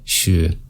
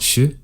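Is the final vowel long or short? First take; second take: long; short. First: The final vowel is held long. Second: The final vowel is cut short. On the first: The speaker calls it right. "keep in mind that's a long vowel sound at the end" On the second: The speaker calls it wrong.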